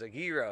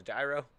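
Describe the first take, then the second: First: "A gyro" with "gyro" as "YEE-roh"; Greek pronunciation. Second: "Gyro" said as "JYE-roh", hard J; the owner's "Gyro" as "jye-roh"; American pronunciation. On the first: Friend repeats his order: "gyro" as "yee-roh". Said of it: "He goes". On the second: Greek owner corrects customer: "Gyro" as "jye-roh". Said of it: "the guy goes". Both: Retold or imitated.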